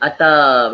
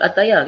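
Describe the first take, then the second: First: The word is said with two syllables, ending 'ta'. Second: The word is said with three syllables, ending 'ya'. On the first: The speaker calls it right. "kita sebut ata begitu" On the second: The speaker calls it wrong. "kita tak sebut ataya"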